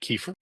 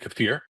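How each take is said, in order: First: It uses the common, everyday pronunciation. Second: It uses a less familiar, affected-sounding pronunciation. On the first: Everyone will understand what is meant. The speaker calls it wrong. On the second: Few listeners will know what is meant. The speaker calls it right.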